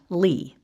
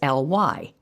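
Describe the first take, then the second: First: It is said as one pronounced syllable. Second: It is said as two separate letter names. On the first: The speaker calls it wrong. "not pronouncing it" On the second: The speaker calls it right. "spelling out the letters"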